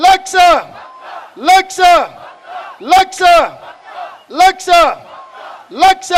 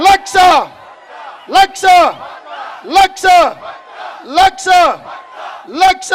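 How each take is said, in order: Both takes have the same delivery.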